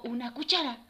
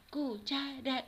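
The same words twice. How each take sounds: First: Said in the usual way. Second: "Cu-cha-ra" in three even beats; teacher counting out "Cuchara"; syllable by syllable. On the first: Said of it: "por ejemplo". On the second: Shown as a demonstration. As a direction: split "Cuchara" into separate syllables. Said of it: "¿Cuántas sílabas tiene cuchara?".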